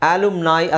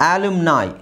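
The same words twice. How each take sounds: Both takes have the same delivery.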